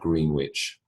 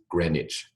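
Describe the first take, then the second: First: It sounds like the full words 'green witch'. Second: It is blended into one short, reduced word. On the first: The speaker calls it wrong. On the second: The speaker calls it right.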